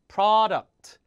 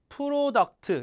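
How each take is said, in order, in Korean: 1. 영어식 음절과 모음으로 발음해요. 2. 한국식 음절과 모음으로 발음해요.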